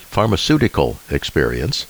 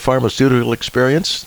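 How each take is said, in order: First: The words are clearly and carefully articulated. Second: The words are mumbled and unclear. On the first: The speaker calls it right. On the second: The speaker calls it wrong.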